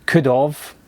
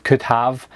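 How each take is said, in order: First: "could have" said as "could of", weak have; "could have" with have reduced to "of". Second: "could have," with a clear h in have; "could have," said fully as "have". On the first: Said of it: "when somebody says". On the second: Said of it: "instead of". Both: Shown as a demonstration.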